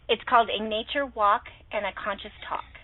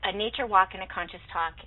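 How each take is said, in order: First: It is said slowly. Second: It is said fast.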